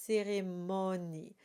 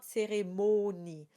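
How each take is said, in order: First: Cérémonie with an open o. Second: Cérémonie with a closed o, the wrong way. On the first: Teacher models cérémonie with an open o. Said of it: "it's cérémonie". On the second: Teacher shows the wrong cérémonie, closed o. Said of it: "it's not cérémonie". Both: Shown as a demonstration.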